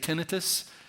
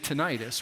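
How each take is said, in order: First: The word has the pronunciation used in Britain. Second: The word has the pronunciation used in America. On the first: "In Britain, they say tinnitus" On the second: "in America, we say tinnitus"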